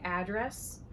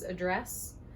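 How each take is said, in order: First: It is said the Southern way. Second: It is said the general, non-Southern way. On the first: "Southerners who usually say address" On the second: "versus address"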